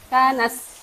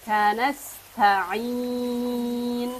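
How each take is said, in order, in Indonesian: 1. Bunyi s pendek dan cepat. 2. Bunyi s ditahan sedikit lebih lama. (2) "sinnya agak dilamakan"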